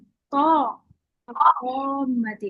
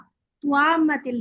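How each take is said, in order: First: The t is followed directly by the vowel. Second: Rounded lips add a w-glide after the t. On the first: The speaker calls it right. "तुआ मतिल नहीं, तो ओ मतिल" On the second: The speaker calls it wrong. "होठ बोल करके मोटा मोटा करने की कोशिश ना करें, वरना आवाज आ रही है तुआ"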